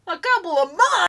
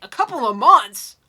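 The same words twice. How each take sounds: First: High, loud disbelief; louder, more outraged repeat; shocked. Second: Loud, disbelieving repeat; stunned, can't believe it; incredulous. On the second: Shocked repeat of the timing. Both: Real, not acted.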